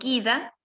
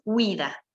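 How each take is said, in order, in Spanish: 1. La u es muda, como gida. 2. La u se pronuncia, como gwida. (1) "en español yo le, leería esto guida" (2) "en italiano es guida"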